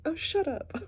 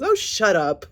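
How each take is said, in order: First: High, mocking brush-off; dismissive retort. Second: Loud, high mocking brush-off; dismissive retort. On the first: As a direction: toss it off like a bored eye-roll. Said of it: "Now she's just like". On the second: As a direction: snap it off like you're done with her. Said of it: "She says".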